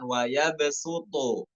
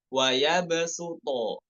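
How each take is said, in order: First: The b bounce carries a short u vowel. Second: The b bounce has no added vowel. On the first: The speaker calls it wrong. "seperti ada bunyi doma" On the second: The speaker calls it right. "Seperti bunyinya yang benar"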